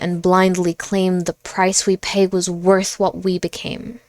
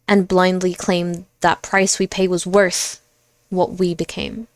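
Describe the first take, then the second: First: The line runs on without any pause. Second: The line has a pause partway through. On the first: "read the last two lines in one breath" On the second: "Like a space there?"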